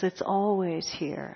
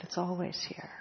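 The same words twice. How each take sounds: First: Said in the usual way. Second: Much softer, almost under the breath; quietly repeating it to herself; soft echo. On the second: Real, not acted. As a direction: let it fall away to a hush. Echoing the line softly.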